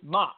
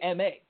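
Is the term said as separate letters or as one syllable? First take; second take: one syllable; letters. First: It is said as a single syllable. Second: It is spelled out as two letters. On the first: The speaker calls it right. "Ma's just Ma" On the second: The speaker calls it wrong. "that's two syllables to say M-A"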